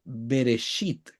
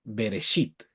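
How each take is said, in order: First: "Bereshit" lento, con la sh suave; Bereshit pronunciado. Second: "Bereshit" más bajo y suave, be-re-shit; Bereshit repetido. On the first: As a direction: decir "Bereshit" despacio, marcando cada sílaba. (leer "Bereshit" en hebreo, pausado) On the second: ("Bereshit" leído de nuevo, bajo y pausado) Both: Shown as a demonstration. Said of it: "Acá dice Bereshit".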